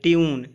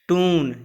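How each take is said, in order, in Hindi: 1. t के बाद y glide के साथ बोला जाता है। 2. t के बाद y ग्लाइड के बिना बोला जाता है। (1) "या फिर इसको ट्यून भी पढ़ते हैं"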